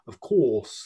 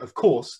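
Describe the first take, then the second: First: The vowel is exaggerated, throaty and back. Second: The vowel is said in a plain way.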